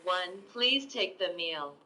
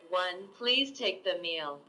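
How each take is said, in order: Both takes have the same delivery.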